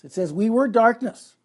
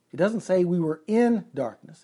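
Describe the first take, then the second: First: "were" punched higher and louder; stress on "were". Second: "in" picked out as the wrong word; stress on "in". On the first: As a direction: hit "were" hard, high and loud. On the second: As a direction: lean on the word "in". Contrasts "in" with plain "were. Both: Shown as a demonstration.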